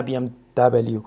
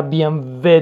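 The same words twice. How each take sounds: First: "بی ام دبلیو" with the last letter said double-u; English letter W. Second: "بی ام و" with the last letter said veh; German letter W. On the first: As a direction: show the mistaken English-style "بی ام دبلیو". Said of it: "نه بی ام دبلیو". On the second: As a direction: model "بی ام و" the German way, ending on a short veh. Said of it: "بی ام و درسته". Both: Shown as a demonstration.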